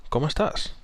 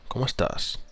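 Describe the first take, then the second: No difference in how they are said.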